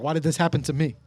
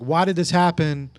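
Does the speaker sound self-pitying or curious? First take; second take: self-pitying; curious. First: It sounds self-pitying, like a victim. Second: It sounds positive and curious.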